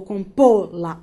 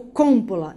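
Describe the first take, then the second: First: "compô-la" stressed on the middle syllable, com-PÔ-la; correcting to "compô-la" as com-PÔ-la, lower in pitch. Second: "compô-la" stressed on the first syllable, COM-po-la; wrong first-syllable stress. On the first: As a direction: stretch the PÔ of "compô-la". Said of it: "última sílaba tônica". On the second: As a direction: punch the COM of "compô-la", letting the rest drop. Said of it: "Separa as sílabas". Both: Shown as a demonstration.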